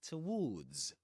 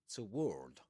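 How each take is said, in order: First: It ends with an s sound. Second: It ends without an s sound. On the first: "in R P or modern R P" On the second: "American English, in which you'll hear something like toward, without the S at the end"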